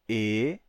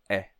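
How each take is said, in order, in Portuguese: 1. A vogal é dita com a boca fechada. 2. A vogal é dita com a boca aberta. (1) "o E longo se tornou E" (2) "mas o E breve é"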